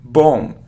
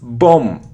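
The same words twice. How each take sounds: First: The final b sound is silent. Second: The final b sound is silent.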